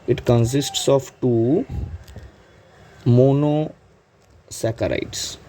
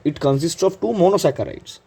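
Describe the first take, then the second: First: Very slow, drawn-out words with a gap before monosaccharides; slow dictation. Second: Said in the usual way. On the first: Real, not acted. Teacher repeating the point for students to note, slow dictation. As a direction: stretch it out syllable by syllable.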